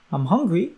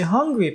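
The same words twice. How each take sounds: First: Said in the usual way. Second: Hungry alone, higher and louder with a falling end; hungry on its own, higher and louder; just hungry. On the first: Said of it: "So instead of saying". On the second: Shown as a demonstration. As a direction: drop the I and say only hungry. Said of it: "they would just say".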